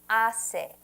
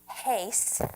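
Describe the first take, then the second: First: The H at the start is silent. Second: The H at the start is pronounced. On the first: The speaker calls it right. "The H is silent in Espanol" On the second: The speaker calls it wrong. "Now notice I didn't say hace"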